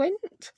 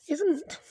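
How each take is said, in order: First: Said in the usual way. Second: "Isn't" said in a mock-posh English accent, crisp "iz-ent", pitched up; "Isn't" in a lightly mock-posh English accent. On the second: Shown as a demonstration. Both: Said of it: "Don't know why I went posh then".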